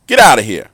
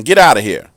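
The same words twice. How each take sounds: First: Louder shout, stress on get; angry shout. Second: Loud shooing, stress on out; firm yell, out punched; fussing at a dog. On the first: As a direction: bark it out, hitting get. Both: Retold or imitated. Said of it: "we heard him fussing".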